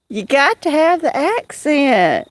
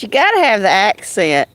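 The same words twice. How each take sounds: First: Southern accent. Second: Said in the usual way. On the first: Shown as a demonstration. Telling John he lacks the accent, in a stretched Southern accent. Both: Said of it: "You don't have a southern accent".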